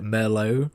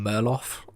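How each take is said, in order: First: The name sounds like the wine Merlot. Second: The name does not sound like the wine. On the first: This is the intended pronunciation of the name. The speaker calls it right. "supposed to be pronounced like Merlot, like the wine" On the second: This is the speaker's habitual reading of the name. The speaker calls it wrong. "I've always pronounced him Murloff"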